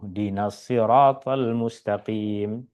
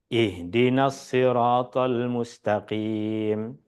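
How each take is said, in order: First: The opening 'i' sound is dropped entirely. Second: The word begins with a clear 'i' sound. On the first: The reading runs on from the previous verse. "hamzahnya hilang. Hamzahnya tidak dibaca" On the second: The reading starts fresh after a stop. "Stop, berhenti. Kemudian kita baca ini"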